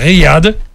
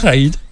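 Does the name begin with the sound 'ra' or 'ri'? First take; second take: ri; ra. First: The name begins with 'ri', then 'yad'. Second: The name begins with 'ra', then 'id'. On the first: The speaker calls it right. "à Riyad" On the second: The speaker calls it wrong. "pas Raïd"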